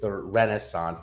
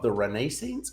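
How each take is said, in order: First: It is said with a plain American pronunciation. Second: It is said with an attempted British pronunciation. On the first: The speaker calls it wrong. "That's how, of course, we say it over here" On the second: The speaker calls it right. "I just can't make it sound like the guys or the announcers over on the D P World Tour do. But I try my best"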